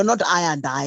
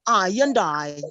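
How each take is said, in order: First: Said in the usual way. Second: "I and I" in a mock Jamaican accent; corrected Jamaican pronunciation. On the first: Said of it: "no, not I and I". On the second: Shown as a demonstration. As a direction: model "I and I" as the right version. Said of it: "It is I and I".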